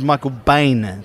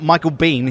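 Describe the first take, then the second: First: The surname does not sound like 'Bean'. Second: The surname sounds like the word 'Bean'. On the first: The speaker calls it right. "He is Michael Biehn" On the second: The speaker calls it wrong. "Not Michael Biehn. He's not, Mr. Bean's cousin"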